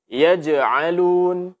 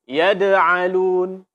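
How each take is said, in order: First: The middle consonant is a j sound. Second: The middle consonant is a d sound. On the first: The speaker calls it right. "Mesti dibaca dengan jim" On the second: The speaker calls it wrong. "ini suara dal jadinya"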